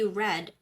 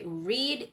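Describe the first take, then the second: First: It is pronounced as the past tense form. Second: It is pronounced as the present tense form. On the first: The action already happened. "for the past tense, this is still the same spelling but a different pronunciation" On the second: The action happens now or habitually. "read is the present tense"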